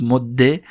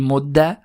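First: "مده" ending in a short "e"; kasra ending. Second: "مده" ending in a short "a"; fatha ending. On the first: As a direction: say "مده" as modde, doubled d. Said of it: "هم کسره بگیره". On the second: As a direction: say "مده" as modda, doubled d. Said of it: "هم فتحه بگیره". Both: Shown as a demonstration.

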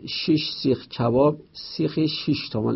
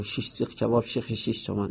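First: Said in the usual way. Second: Quick, softer run through the tongue-twister; rapid tongue-twister. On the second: Shown as a demonstration. Teacher showing a tongue-twister repeated in contests, rapid and soft. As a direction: rattle it off fast, under your breath.

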